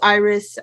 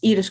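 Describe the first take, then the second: First: The name is said with English pronunciation. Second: The name is said with Dutch pronunciation. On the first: This form is also acceptable. "you can pronounce it as Iris" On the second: This is the official form of the name. "officially in in Dutch, my name is"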